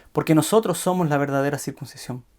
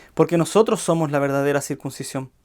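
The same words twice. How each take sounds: No difference in how they are said.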